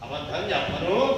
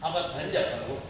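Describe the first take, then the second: First: The final vowel is stretched out long. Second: The final vowel is short and plain. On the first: The promise not to lie is turned around. "శబ్దము కొంచెం లాగితే ఒక అర్థం వస్తుంది" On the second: I will not tell a lie. "లాగకపోతే ఒకటి"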